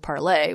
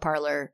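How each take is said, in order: First: The name ends in an open vowel, without r. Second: The name ends with an r sound. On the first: This is the intended French-style pronunciation. "the intended pronunciation of this platform was Parlay" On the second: This is the speaker's own non-French way of saying it. "I'm still going to continue to call it Parler because I'm not French"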